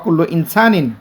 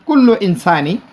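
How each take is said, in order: First: The last word ends with an n sound. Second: The last word ends on a vowel. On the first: "অ্যারাবিকরা ইনসানিন উচ্চারণ করে" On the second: "ইনসানি দিলে হবে"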